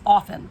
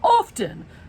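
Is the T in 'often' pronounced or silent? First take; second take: silent; pronounced. First: The T in the middle is silent. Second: The T in the middle is pronounced. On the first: The speaker calls it right. "It's pronounced often" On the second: The speaker calls it wrong. "everyone's pronouncing the T"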